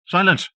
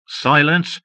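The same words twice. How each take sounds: First: Sharp high snarl. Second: Loud high snarl. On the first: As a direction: snap it at him. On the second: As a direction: snarl it at him. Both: A narrator's reading. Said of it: "the woman snarled".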